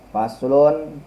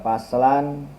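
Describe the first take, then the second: First: The word ends with the vowel u before n. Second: The word ends with the vowel a before n. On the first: The word is the predicate of an omitted subject. "Boleh dibaca faslun" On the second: The word is the object of an implied verb. "boleh dibaca paslan"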